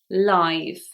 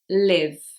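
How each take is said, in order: First: The vowel is long, as in five. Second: The vowel is short, as in give. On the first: It is the adjective. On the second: It is the verb.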